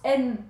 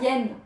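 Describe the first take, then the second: First: The word starts with a plain vowel sound. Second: The word starts with a y sound. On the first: The speaker calls it right. "ça se prononce N" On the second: The speaker calls it wrong. "Pas yen"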